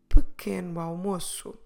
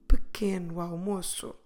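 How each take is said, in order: First: The two words run together like one word. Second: The same.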